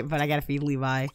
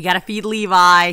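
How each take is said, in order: First: Said in the usual way. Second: Louder, insistent; loud insistence on feeding Levi; emphatic. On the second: Real, not acted. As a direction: push it firmly. Restating the priority.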